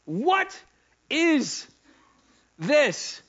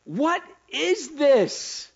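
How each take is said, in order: First: Each word its own beat, high and loud; "What", "is", "this" split by pauses, each hit. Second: Slow, loud, high question; drawn-out question. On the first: Preacher repeating his question, word by word. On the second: Preacher asking the room, slow and loud. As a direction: stretch every word, loud and high. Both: Real, not acted.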